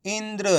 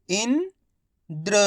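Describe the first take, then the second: First: Indra joined in one piece, softer; blended whole word. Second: Indra in two parts, "इन" rising, long pause, then "द्र"; very slowly sound out Indra piece by piece; split into syllables. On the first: Teacher showing learners the result, Indra blended together. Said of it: "तो मिलके बन जाएगा". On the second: Teacher breaking Indra down for learners, syllable by syllable. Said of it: "उच्चारण करके ही पढ़ सकते हो". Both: Shown as a demonstration.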